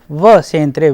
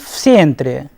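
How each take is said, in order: First: The preposition is a separate voiced v sound. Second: The preposition joins the noun as an f sound.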